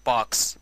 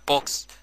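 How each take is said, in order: First: باكس said with an open a, American style; American pronunciation. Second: بوكس said with a rounded o, as Egyptians say it; wrong Egyptian vowel. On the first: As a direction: say باكس with a wide a sound. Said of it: "نطقها الصحيح باكس بالامريكان". (نطق باكس بفتحة أمريكية مفتوحة) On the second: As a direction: say بوكس with an o like in box. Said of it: "بس نطقها الصحيح مش بوكس". (نطق بوكس بحرف o المصري الغلط) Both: Shown as a demonstration.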